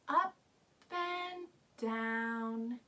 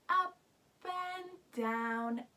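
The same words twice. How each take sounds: The two takes are said the same way.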